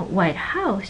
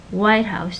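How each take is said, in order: First: White House stressed on House; phrase stress, white HOUSE. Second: White House stressed on White; WHITE-house as one word, falling after WHITE; compound stress, WHITE House. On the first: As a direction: white HOUSE as two words. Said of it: "the house is mo". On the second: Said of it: "the stress goes on the first syllable". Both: Shown as a demonstration.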